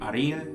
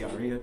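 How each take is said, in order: First: The r sound is rolled with the tongue. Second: The r sound is plain, not rolled. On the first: "I can roll my tongue with it" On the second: "or I just say aria"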